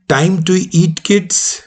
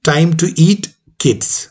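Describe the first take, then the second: First: Put-on "eat kids" run together; "kids" joined straight onto "eat"; reading without comma. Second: Put-on "time to eat", break, falling "kids"; comma before KIDS. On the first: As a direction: say "Time to eat kids" with no break before "kids". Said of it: "बच्चों को खाने का time है". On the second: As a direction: pause after "eat", then "kids". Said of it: "या बच्चों खाने का time है". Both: Shown as a demonstration.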